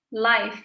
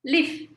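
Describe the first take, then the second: First: The vowel is long, rhyming with dive. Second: The vowel is short, rhyming with give. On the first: It is an adjective meaning being alive. "Sama rhymingnya sama dengan dive" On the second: It is a verb meaning to be alive. "Live uh, seperti give ya"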